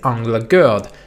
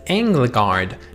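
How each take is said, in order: First: The name is said the Swedish way. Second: The name is said the common anglicized way. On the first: This is the researched pronunciation. The speaker calls it right. "the right way to pronounce it is" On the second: This is how most reviewers say it. The speaker calls it wrong. "every single person is pronouncing the band's name as"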